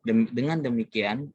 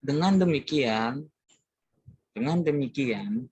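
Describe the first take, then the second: First: Said in the usual way. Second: Firm sermon-style dengan demikian; preacher's firm intonation. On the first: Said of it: "intonasinya itu seperti itu". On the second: Shown as a demonstration. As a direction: say dengan demikian slowly and firmly, rising on dengan. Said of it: "biasanya intonasi, intonasinya itu seperti itu".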